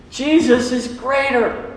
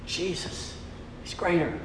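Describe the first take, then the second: First: Jesus is greater called out high, slow and firm; emphatic declaration. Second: Jesus is greater breathed as a hushed whisper. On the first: Preacher proclaims the church's theme, Jesus is greater, emphatically. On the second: Preacher hushes the congregation, whispering Jesus is greater. Preacher repeating church theme. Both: Acted.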